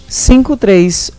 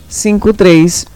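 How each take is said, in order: The two takes are said the same way.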